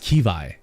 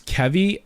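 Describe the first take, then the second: First: The name rhymes with Levi. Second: The name does not rhyme with Levi. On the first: "like Levi's jeans" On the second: "I thought it was Kevy"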